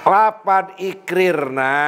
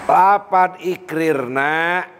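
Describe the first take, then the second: Both takes have the same delivery.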